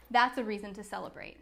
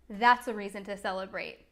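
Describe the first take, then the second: No difference in how they are said.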